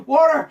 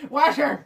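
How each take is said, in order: First: Said in the usual way. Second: "Water!" as a Belfast "wather"; louder mock Belfast "Water!"; mock Belfast accent. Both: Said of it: "normal to Irish to Belfast".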